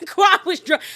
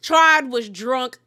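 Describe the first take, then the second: First: Laughing. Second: Slow emphasis. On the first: Laughing retelling the drunk scene. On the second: Repeats it slowly for emphasis. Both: Real, not acted.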